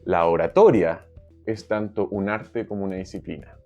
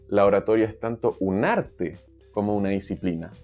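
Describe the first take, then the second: First: The stress is on "tanto". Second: The stress is on "arte".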